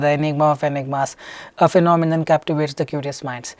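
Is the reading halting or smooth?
smooth. It is read smoothly, without breaks. The speaker calls it right. "skip in a way that software shouldn't even come to know"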